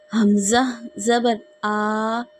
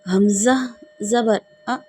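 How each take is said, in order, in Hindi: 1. अंतिम स्वर लंबा खींचकर बोला जाता है। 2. अंतिम स्वर जल्दी और झटके से निकाला जाता है। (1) "हमें इस तरह अदा नहीं करना" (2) "ये जल्दी-जल्दी भी नहीं अदा करना"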